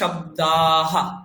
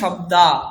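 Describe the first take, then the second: First: The long a is followed by a light h sound. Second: The word ends on a plain long a vowel. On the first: The speaker calls it right. "আয়ের পরে একটা হা, মানে হ, অল্প হ" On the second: The speaker calls it wrong. "বাংলাতে আমি কি বলবো?"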